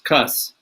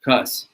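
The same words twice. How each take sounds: First: The name starts with a K sound. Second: The name starts with a K sound.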